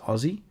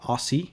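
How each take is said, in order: First: Aussie is said the way Australians say it. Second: Aussie is said the way Americans say it. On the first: The speaker calls it right. "it's Aussie" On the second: The speaker calls it wrong. "it's not Aussie, ... many many Americans do say Aussie"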